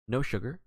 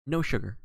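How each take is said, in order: First: "No sugar?" with a rising questioning end; surprised question. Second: "No sugar" said as a plain falling statement; flat statement. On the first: Poirot questioning Cynthia, rising surprised question. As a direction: ask "No sugar?" rising, a touch incredulous. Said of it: "murmured Poirot". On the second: Cynthia refusing sugar, firm falling statement. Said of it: "said Cynthia". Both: A narrator's reading.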